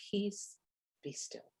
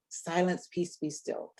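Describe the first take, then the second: First: Quiet calm command. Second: Said in the usual way. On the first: Shown as a demonstration. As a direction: say Peace, be still softly, dropping away to almost nothing. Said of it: "or if I'm going to say it, do I say". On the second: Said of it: "I wonder sometimes if he was shouting over".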